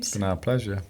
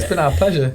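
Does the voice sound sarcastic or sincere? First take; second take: sarcastic; sincere. First: The tone sounds sarcastic and insincere. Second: The tone sounds warm and sincere. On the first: The speaker does not really mean it. The speaker calls it wrong. "It did sound quite sarcastic" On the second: The speaker genuinely means it. The speaker calls it right. "Shall I try again?"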